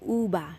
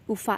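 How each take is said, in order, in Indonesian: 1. Konsonan itu berbunyi seperti b. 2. Konsonan itu berbunyi seperti v dalam bahasa Inggris. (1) "Jadi mereka itu ucapin ubah" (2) "Aku pertama kali bilangnya ufa, tetapi itu uh, kurang uh, seperti native speaker"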